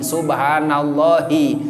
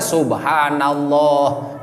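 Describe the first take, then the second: First: It ends with a final i vowel. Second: It ends on a stopped h sound. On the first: The phrase continues into the next word. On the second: The phrase stops at this word. "disukunkeun diwaqofkeun"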